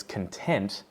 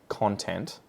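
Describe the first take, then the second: First: "content" as the adjective, cun-TENT; weak schwa first, then hit TENT in "content"; "content" with the stress at the end; stress on second syllable. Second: "content" as the noun, CON-tent; "content" with full first vowel and front stress; stress on first syllable. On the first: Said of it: "we've just switched the stress". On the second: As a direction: hit CON in "content", slowly. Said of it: "stress changes the meaning of the word". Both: Shown as a demonstration.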